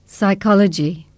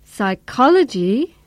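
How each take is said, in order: First: "Psychology" said level, easing down at the end; uninterested answer, no lift on "Psychology"; falling intonation. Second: Slow "Psychology" swooping up, down and up; keen interest, big rise-fall on "col" and final lift in "Psychology"; enthusiastic echo. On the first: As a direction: let "Psychology" fall away. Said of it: "most of his intonation is falling". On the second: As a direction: stretch "Psychology" into a wavy question. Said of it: "a lot of rise fall intonation". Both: Shown as a demonstration.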